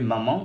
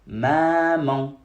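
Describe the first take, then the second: First: The a vowel is short and normal. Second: The a vowel is drawn out long. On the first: "on ne dira plus maman" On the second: "il faut tirer la lettre A"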